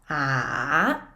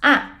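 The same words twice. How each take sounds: First: The pitch dips down, then rises. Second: The pitch falls sharply from high. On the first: "the roller coaster tone. So it goes down and up" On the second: "the descending tone... sound a little angry"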